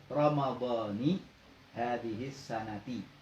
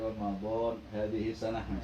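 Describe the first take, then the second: First: Ramadan ends with a final i vowel. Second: Ramadan ends with no final vowel. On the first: "maka membacanya Ramadhani" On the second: "Kalau disukun lebih selamat"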